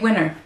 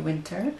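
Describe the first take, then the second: First: The middle T sound is dropped entirely. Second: The middle T sound is clearly pronounced. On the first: "We say winter" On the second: "we don't say winter"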